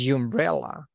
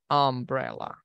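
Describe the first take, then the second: First: The word begins with a consonant y sound. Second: The word begins with a plain vowel sound. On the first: The speaker calls it wrong. "we don't say umbrella" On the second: The speaker calls it right. "we say umbrella"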